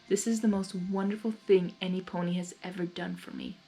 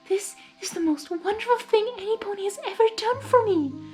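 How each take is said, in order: First: It is said in the reader's normal voice. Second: It is said in an imitation of Fluttershy's voice.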